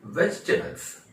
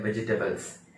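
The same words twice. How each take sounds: First: वेजिटेबल्स as high, emphatic vech-tebals; correct pronunciation. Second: वेजिटेबल्स in four syllables, ve-ji-te-bals; common mispronunciation. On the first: Teacher giving the real pronunciation, three-syllable demonstration. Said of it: "इसका असली pronunciation है". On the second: Teacher quoting what everyone says, four-syllable mispronunciation. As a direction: sound every vowel in वेजिटेबल्स, ji included. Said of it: "ये गलत pronunciation है". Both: Shown as a demonstration.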